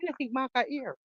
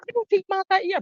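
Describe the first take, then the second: First: Said in the usual way. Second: Higher and louder jeering question; louder taunt. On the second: Real, not acted. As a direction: throw it at him louder. Taunting Mark on the call.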